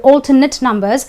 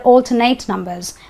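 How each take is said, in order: First: The word ends sounding like 'it'. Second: The word ends sounding like 'ate'. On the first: The speaker calls it right. "They're alternate numbers" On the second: The speaker calls it wrong. "I will not say they are alternate numbers"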